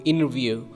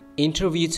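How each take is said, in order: First: The T after the N is dropped. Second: The T after the N is pronounced.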